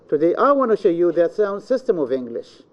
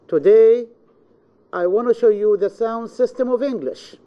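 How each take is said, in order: First: The stress falls on the word I. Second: The stress falls on the word today. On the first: It is me, not anyone else. "This means I, not anyone else" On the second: It is this day, not any other day. "This means this day, not any other day"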